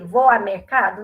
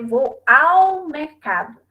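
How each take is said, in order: First: Said in the usual way. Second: "ao" drawn out and stressed before "mercado". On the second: Shown as a demonstration. Teacher correcting the phrase for students, "ao" stressed and stretched. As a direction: lean long on the word "ao". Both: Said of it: "Não, eu vou dizer vou ao mercado".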